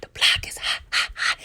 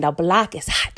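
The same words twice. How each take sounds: First: Hushed, voiceless repeat trailing off; whispered echo. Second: Said in the usual way. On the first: Pretend. Recapper echoes the street warning for effect, whispered.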